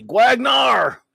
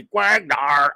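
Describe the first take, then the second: First: High, loud drawn-out announcer call; big booming shout-out; rousing name shout. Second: Drawn-out name call, toned down; attempted copy of a hammed-up name call; Raquel. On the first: Real, not acted. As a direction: belt the name out like a hype announcer. Calling out a viewer's name. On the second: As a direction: imitate a friend's signature shout, half-hearted. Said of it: "as Raquel would say".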